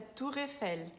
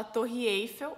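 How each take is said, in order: First: "Tour Eiffel" as said in France; French pronunciation. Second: "Torre Eiffel" as said in Brazil; Brazilian pronunciation. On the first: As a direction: say "Tour Eiffel" in French, "tur" and stress on the last syllable. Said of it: "mas lá na França é". ("Tour Eiffel" à francesa) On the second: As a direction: say "Torre Eiffel" with Portuguese sounds, two-syllable "Torre". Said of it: "Aqui no Brasil a gente fala". ("Torre Eiffel" à brasileira) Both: Shown as a demonstration.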